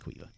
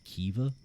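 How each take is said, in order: First: The name is pronounced like 'Quiva'. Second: The name is pronounced like 'Kiva'. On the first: This is how the name is really said. The speaker calls it right. "it's Quiva" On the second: Some people say it this way. The speaker calls it wrong. "I've heard some people call it Kiva, but no"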